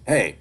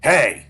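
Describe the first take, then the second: First: The greeting sounds casual and offhand. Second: The greeting sounds eager rather than casual.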